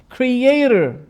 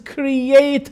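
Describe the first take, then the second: First: It is said in an American accent. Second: It is said in an English accent.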